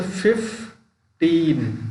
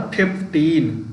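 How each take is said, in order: First: फ़िफ़्टीन slowly broken as फ़िफ़, pause, टीन; split into syllables. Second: Said in the usual way. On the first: Shown as a demonstration. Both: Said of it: "तो इस तरीके से".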